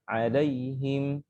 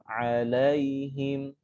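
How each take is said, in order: First: The vowel is clipped short and rushed. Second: The vowel is held for its full length. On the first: The speaker calls it wrong. "bukan 'alaihim" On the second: The speaker calls it right. "fathahnya sempurna"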